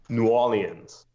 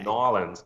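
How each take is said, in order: First: The name is said with the R skipped. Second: The name is squeezed into two short syllables. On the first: This is how locals say it. "you sort of b skip over the R" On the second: Some people shorten it even further. "Some people say"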